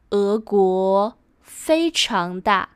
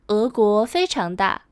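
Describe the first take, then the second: First: Slow, phrase by phrase; spaced-out teaching pace; slow model sentence. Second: Said in the usual way. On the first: Shown as a demonstration. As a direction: model it slowly for learners.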